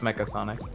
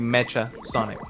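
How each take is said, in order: First: Mecha is said with a 'k' sound. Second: Mecha is said with a 'ch' sound. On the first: It is read the usual English way. "instead of" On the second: It is read the Spanish way. "the reading in Spanish would be"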